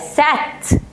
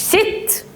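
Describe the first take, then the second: First: The vowel is a short ah sound. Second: The vowel is a short eh sound. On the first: "ولا سات" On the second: "مش ست"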